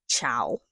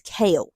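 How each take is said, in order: First: The name starts with a 'ch' sound. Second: The name starts with a 'k' sound. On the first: The speaker calls it wrong. "I thought his name was pronounced Chow" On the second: The speaker calls it right. "it's pronounced K A L E"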